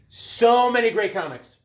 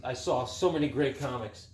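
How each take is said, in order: First: "So many great comics" louder and much higher; excited emphatic repeat. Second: Said in the usual way. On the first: Real, not acted. Collector recalling the flea market, excited louder repeat. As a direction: burst out with enthusiasm on "So many".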